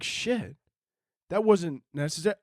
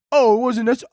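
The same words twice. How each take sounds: First: Soft, taken-aback reaction; stung, subdued. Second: High, taunting echo on "necessary"; mocking echo. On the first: Acted. Friend hurt by a joke gone too far, quietly stung. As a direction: drop the volume as the wounded friend. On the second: America parroting the hurt friend, high and mocking. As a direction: throw the complaint back in a raised mocking voice.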